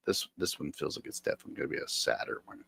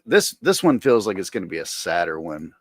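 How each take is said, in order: First: Whispered fast and much softer. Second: Said in the usual way. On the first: Real, not acted. Repeating himself to chat, a fast whisper. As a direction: whisper it to yourself, quicker.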